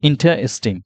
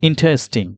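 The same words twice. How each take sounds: No difference in how they are said.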